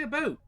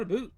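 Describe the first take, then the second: First: About said with a loud, high, rounded Canadian o, close to a-boat. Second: A boot with a long oo, loud and high; a boot, the way outsiders mock it; loudly mock the a boot cliché; the wrong a boot. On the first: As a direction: stretch about out in a big Canadian accent. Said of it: "Everyone knows says Canadians say about". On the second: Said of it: "Canadians say about". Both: Shown as a demonstration.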